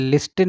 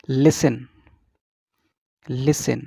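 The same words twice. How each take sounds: First: "listen" said as LIS-tin, with a sounded t; T pronounced. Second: "listen" said as LIS-en, with no t; silent T. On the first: Teacher shows the mistake to avoid, "listen" with t. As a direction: put an audible t in the middle of "listen". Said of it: "इसको listen नहीं बोलेंगे". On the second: Teacher models the right word for students, "listen" without t. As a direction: drop the t from "listen". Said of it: "नहीं बोलेंगे, it is". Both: Shown as a demonstration.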